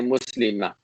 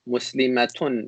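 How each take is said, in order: First: The word ends in a vowel, no final t. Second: The word keeps a t sound before the ending. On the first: The speaker stops after this word. "if you stop after pronouncing that word, you don't pronounce the ta" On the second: Another word follows without stopping. "Do you guys hear how I'm pronouncing the ta?"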